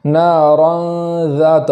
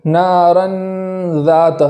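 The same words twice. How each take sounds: First: Slow نارن ذات, noon hidden with nasal hum; ikhfa with ghunna. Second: نارن ذات with a full clear noon, the mistake; touch the tongue on the noon; wrong ikhfa; tongue touches noon. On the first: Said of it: "اس طریقے سے". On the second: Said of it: "نہیں پڑھیں گے کہ نون کے مخرج میں زبان لگ جائے". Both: Shown as a demonstration.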